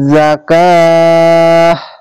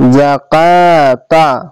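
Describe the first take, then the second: First: The word ends with an h sound and stops. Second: The word ends with a t sound and vowel. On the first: The reader pauses at this word. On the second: The reading continues without stopping.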